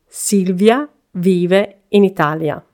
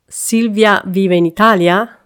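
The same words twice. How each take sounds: First: The voice falls at the end. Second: The voice rises at the end.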